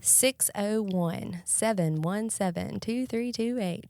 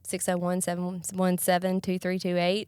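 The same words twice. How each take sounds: First: The number is said more slowly. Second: The number is said at normal speed.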